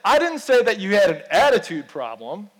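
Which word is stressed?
attitude. The stress is on the word attitude.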